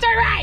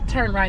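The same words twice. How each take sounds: First: It is said loudly and abruptly. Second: It is said softly and calmly. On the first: The driver should turn sharply right away. The speaker calls it wrong. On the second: The driver should ease into the turn. The speaker calls it right. "if you want me to turn with the, a yield"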